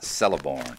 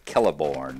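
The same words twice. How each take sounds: First: The name begins with a soft S sound. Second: The name begins with a hard K sound. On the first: The speaker calls it wrong. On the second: The speaker calls it right. "the C is pronounced as a K"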